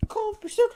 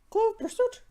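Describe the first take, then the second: First: Breathy dramatic whisper; whispered title. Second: High-pitched theatrical voice; high dramatic title. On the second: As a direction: announce the title high and hammy. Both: Pretend.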